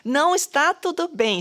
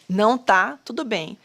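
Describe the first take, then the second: First: Não está tudo bem, first não hit high; não stressed high and falling. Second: Said in the usual way. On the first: Shown as a demonstration. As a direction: lift the first não, then fall.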